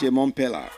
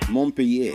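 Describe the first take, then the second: First: The double L is said as an L sound. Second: The double L is said as a Y sound. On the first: The speaker calls it wrong. "A whole lot of people pronounce it Montpellier" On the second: The speaker calls it right. "the double L is pronounced like you're pronouncing Y sound"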